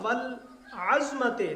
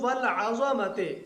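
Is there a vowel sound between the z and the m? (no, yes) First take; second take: no; yes. First: The z runs straight into the m, no vowel. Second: An a vowel is heard after both a and z. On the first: The word means bone. The speaker calls it wrong. "इसका माना होता है हड्डी" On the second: The word means greatness. The speaker calls it right. "आइन और ज़ा दोनों के ऊपर फतह"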